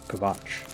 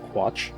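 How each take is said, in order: First: The name starts with a 'kv' sound. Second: The name starts with a 'kw' sound. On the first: "But it's a V" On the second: "It's supposed to be pronounced Quatch"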